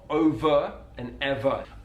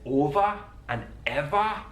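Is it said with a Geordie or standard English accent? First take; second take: standard; Geordie. First: The word endings are said with an E sound. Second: The word endings are said with an A sound.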